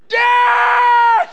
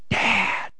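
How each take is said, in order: First: It is screamed loudly and urgently. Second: It is said quietly and calmly.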